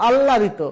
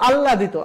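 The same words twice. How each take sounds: Both takes have the same delivery.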